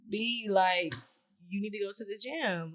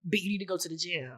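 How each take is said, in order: First: It sounds friendly and casual. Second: It sounds harsh and insulting.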